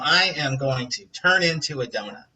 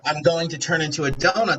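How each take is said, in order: First: I am is said as two full words. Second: I am is contracted to one syllable.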